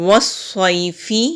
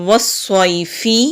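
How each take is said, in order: Both takes have the same delivery.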